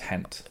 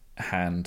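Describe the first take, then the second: First: The word ends in a voiceless consonant. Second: The word ends in a voiced consonant.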